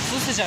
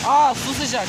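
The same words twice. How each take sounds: First: Said in the usual way. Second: Surprised. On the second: Real, not acted. Surprised to find warm water.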